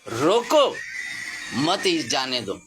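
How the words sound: The pause comes after the word 'roko'. "खाली आगे का पूर्ण विराम उठा करके थोड़ा पहले लगा देना है।"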